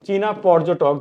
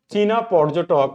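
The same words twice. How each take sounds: The two takes are said the same way.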